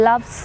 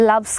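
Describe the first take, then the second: No difference in how they are said.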